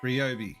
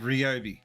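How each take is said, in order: The two takes are said the same way.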